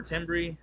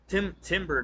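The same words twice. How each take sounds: First: "timbre" said as TIM-bree; second stab at "timbre", rhyming its ending with tree; unsure pronunciation. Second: "timbre" said as TIM-ber; halting first try at "timbre", ending in -ber; unsure pronunciation. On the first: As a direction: end "timbre" on an -ee sound. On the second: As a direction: stumble into "timbre", ending it like timber. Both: Real, not acted. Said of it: "I can't pronounce the word".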